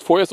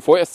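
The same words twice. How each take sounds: First: Said in the usual way. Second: „vorerst“ nachdrücklich betont; Betonung auf vorerst. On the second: Real, not acted. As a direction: das Wort „vorerst“ deutlich hervorheben. („vorerst“ mit Nachdruck sprechen) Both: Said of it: "und ich betone vorerst".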